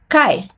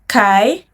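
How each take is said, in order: First: The pitch falls sharply from high. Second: The pitch rises from mid to high.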